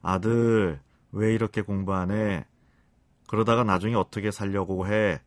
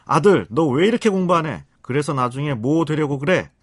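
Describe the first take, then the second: First: Acted tender parental reproach; soft, kindly nagging. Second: Loud, high-pitched scolding mother; acted harsh parental telling-off; harsh nagging. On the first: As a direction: nag your son sweetly, without raising your voice. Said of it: "부드럽고 상냥한 말투로". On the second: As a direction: snap at your son in a sharp, raised voice. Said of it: "독한 말투로".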